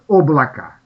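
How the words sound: The unstressed o keeps its o sound. "там еще немножко «о» сохраняется как «о»"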